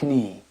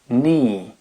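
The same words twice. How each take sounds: First: The k at the start is pronounced. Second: The k at the start is silent. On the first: The speaker calls it wrong. "et non pas" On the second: The speaker calls it right. "la prononciation du K disparaît"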